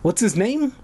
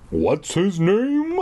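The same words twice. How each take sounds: First: Said in the usual way. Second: Slow choked question. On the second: Acted. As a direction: force it out through a tight throat. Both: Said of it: "I choked out".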